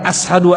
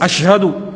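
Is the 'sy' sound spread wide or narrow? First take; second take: narrow; wide. First: The 'sy' sound is narrow, without spreading air. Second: The 'sy' sound spreads air around the tongue. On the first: The speaker calls it wrong. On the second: The speaker calls it right. "Harus kayak gitu"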